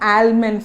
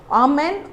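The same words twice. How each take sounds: First: The L sound is clearly pronounced. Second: The L sound is left out. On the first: The speaker calls it wrong. "it is not almond" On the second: The speaker calls it right. "we don't pronounce the letter L here"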